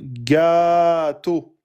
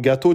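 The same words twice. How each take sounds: First: A vowel is noticeably drawn out. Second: The vowels are kept at normal length. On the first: "c'est une prolongation" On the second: "au lieu de dire"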